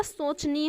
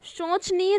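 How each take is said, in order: First: "सोचनीय" started with s, sochniya; plain s sound. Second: "सोचनीय" started with sh, shochniya; wrong sh sound. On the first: Teacher correcting the word, s clearly sounded. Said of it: "सोचनीय होता है". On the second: Teacher quoting the error to students, mispronounced. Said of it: "सोचनीय नहीं होता". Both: Shown as a demonstration.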